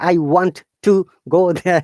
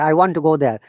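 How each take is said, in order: First: Both t sounds are pronounced separately. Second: The two t sounds merge into one. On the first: The speaker calls it wrong. "We don't say" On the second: The speaker calls it right. "it sounds natural if you say"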